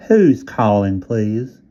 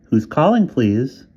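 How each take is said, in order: First: Whiny Southern operator, repeated; nasal Southern operator voice; Southern accent. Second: High, loud Southern drawl of a phone operator; Southern operator asking who is calling. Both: A narrator's reading. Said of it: "Southern accent, nasal and whiny".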